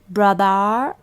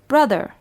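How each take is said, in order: First: The word ends with an 'ar' sound. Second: The word ends with an 'er' sound. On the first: The speaker calls it wrong. "Is it A R?" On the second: The speaker calls it right. "we say er"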